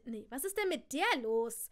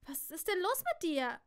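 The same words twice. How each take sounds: First: "der" as the prominent word before "los"; stress on DER. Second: Said in the usual way. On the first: Shown as a demonstration. Cousin challenges the narrator, stressing "der". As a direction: lean on "der", then drop on "los". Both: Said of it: "Nee, was ist mit di".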